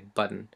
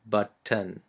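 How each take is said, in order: First: The two T sounds are run together. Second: Both T sounds are clearly pronounced. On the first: "normally when I speak in English I say button, and I don't really pronounce this first T" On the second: "I'm going to pronounce it as if we were writing a Tamil word"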